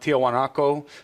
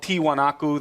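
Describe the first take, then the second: First: The name has a Spanish-style pronunciation. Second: The name has its native Andean pronunciation. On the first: This form became the name of the town. "the Spanish pronunciation of that was more like" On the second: This is the original name of the whole site. "That's the native word for it"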